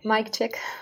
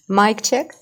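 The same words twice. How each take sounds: First: It is said at a softer volume. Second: It is said at a louder volume. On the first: The speaker calls it wrong. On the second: The speaker calls it right.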